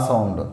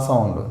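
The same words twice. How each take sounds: No difference in how they are said.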